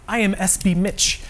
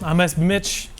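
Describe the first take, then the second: First: Each word is clearly and carefully enunciated. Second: The words are run together casually. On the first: The speaker calls it right. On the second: The speaker calls it wrong.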